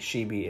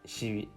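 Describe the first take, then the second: First: The first consonant is an English sh. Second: The first consonant is further forward. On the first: The speaker calls it wrong. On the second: The speaker calls it right. "more forward in the mouth"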